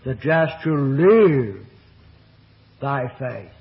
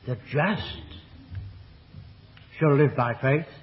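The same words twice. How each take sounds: First: The stress falls on the word live. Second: The stress falls on the word just. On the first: Faith is what sustains the life itself. "the emphasis on the third word of the statement" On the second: It is the just who live by faith. "because God is there shown to be not only just"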